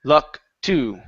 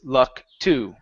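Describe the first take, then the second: First: The stress falls on to, which goes up. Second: The same.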